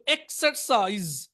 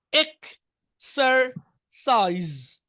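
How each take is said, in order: First: Said in the usual way. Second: exercise very slowly, split into three separate beats; teacher's drawn-out dictation of exercise; syllable by syllable. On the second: Shown as a demonstration. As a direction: break exercise into ek, ser, saiz with pauses. Teacher breaks word into syllables.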